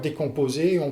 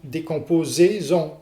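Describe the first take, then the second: First: No z sound links the two words. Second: A z sound links the two words together. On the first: "Si vous ne faites pas la liaison" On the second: "si vous faites la liaison, ... vous allez créer ici une cacophonie"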